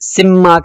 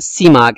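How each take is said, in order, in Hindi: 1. म ध्वनि खिंची हुई और दोहरी है। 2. म ध्वनि छोटी और एकल है। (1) "सिमाक नहीं है ... तशदीद नहीं है" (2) "बिकसरी अव्वलिही व तख़फ़ीफ़िल मीम"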